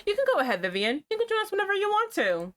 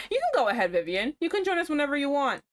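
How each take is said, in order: First: Put-on much higher, fast, sugary Valley Girl. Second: Lightly voiced Valley Girl, fast and perky; breezy, sweet Valley Girl offer. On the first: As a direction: chirp it way up like a bubbly Valley Girl. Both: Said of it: "variations of the Valley Girl bitch voice".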